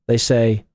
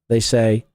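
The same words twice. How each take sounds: No difference in how they are said.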